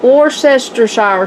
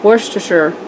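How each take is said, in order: First: It is said with a Texan-style pronunciation. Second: It is said with the English-style pronunciation. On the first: The speaker calls it wrong. "This is not Worcestershire sauce, if you're from Texas like me" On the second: The speaker calls it right. "Worcestershire is how you say it"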